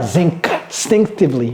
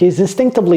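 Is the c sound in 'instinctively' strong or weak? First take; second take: strong; weak. First: The c sound in the middle is fully pronounced. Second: The c sound in the middle is barely pronounced. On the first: The speaker calls it wrong. "ce C, c'est n'est pas instinctively" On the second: The speaker calls it right. "ce C n'est pas vraiment prononcé autant que ça"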